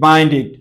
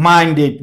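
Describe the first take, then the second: No difference in how they are said.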